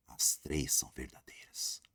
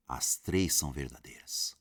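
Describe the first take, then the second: First: Slow, breathy whisper of the answer. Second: Said in the usual way. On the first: Shown as a demonstration. Teacher confiding the answer to students, whispered. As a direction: let it out like a secret to the class.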